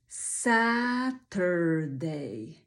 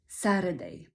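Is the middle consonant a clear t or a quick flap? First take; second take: clear t; flap. First: The middle consonant is a clear t sound. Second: The middle consonant is a quick flapped r.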